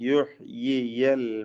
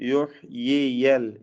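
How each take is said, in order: The two takes are said the same way.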